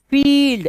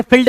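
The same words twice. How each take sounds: First: फील्ड with a long high ee, "feeeld". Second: फील्ड cut to "fild" with short i; rejected फील्ड, "fild"; wrong short vowel. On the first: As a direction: hold the ee in फील्ड. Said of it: "sound लंबा जाएगा". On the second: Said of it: "फील्ड मत पढ़ना". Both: Shown as a demonstration.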